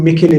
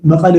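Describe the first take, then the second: First: መከለ with a plain k instead of the throaty ቐ; መከለ said like a foreigner, plain k; foreigners' mispronunciation. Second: መቐለ with a throaty local q sound; መቐለ as locals pronounce it, with guttural ቐ; local pronunciation. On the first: Retold or imitated. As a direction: imitate tourists saying መከለ with an ordinary k. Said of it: "ንሳቶም ሃመ ኢሎም መከለ ልብል እዮም ፕሮናንስ ገይሮም". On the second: Shown as a demonstration. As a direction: say መቐለ the Tigrinya way, back in the throat. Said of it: "ልካ ንሳቶም ሃመ ኢሎም መከለ ልብል እዮም".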